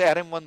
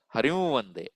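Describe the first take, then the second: First: The nasal is an m made with closed lips. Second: The nasal is a nasalized sound without lip closure. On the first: The speaker calls it wrong. "Our usual practice" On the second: The speaker calls it right. "Hari plus Va nasalized"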